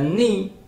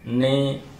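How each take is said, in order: First: The vowel is a clear i with spread lips. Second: The vowel is not a clear spread i. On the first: The speaker calls it right. "harus dibaca ni" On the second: The speaker calls it wrong. "jangan ni"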